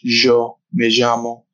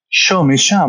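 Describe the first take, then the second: First: The Y is said like a French 'j'. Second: The Y is said in a Buenos Aires way.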